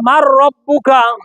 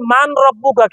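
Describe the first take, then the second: First: The n merges into a doubled r sound. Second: The n is pronounced clearly before the r. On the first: The speaker calls it right. "তাহলে মার রব্বুকা" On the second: The speaker calls it wrong. "আমাদের দেশে ওলামায়ে কেরামরা বলে মান রব্বুকা"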